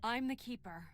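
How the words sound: It sounds confident and meant.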